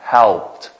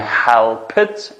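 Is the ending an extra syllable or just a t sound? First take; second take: t sound; extra syllable. First: The ending is only a short t sound. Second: The ending is an extra syllable, like id. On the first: The speaker calls it right. "әмәсіне helped" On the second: The speaker calls it wrong. "Help it оққасы қатағылыр"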